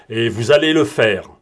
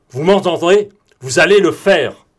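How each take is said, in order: First: Said in the usual way. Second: The order shouted higher and louder, the word allez hammered; forceful shouted order. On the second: Acted. Broom shouts at Morane that he will land the plane, forceful. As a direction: drive it home so he can't say no.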